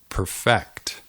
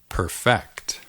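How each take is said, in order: First: The stress is on the second syllable. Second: The same.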